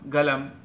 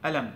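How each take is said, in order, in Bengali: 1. শব্দটি g ধ্বনি দিয়ে শুরু হয়। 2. শব্দটি glottal stop দিয়ে শুরু হয়। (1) "সৌদিরা বলে গলম গলম, এটা গাইন গাইনের মতো উচ্চারণ করে" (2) "ইজিপশিয়ান বা মিশরের লোকের এরা বলবে অলাম আলম"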